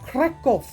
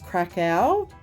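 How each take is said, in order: First: It is said with a Polish-style pronunciation. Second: It is said as an English reading of the spelling. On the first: The speaker calls it right. "is how they pronounce it" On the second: The speaker calls it wrong. "that's not how you pronounce it"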